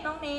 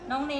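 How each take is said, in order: Both takes have the same delivery.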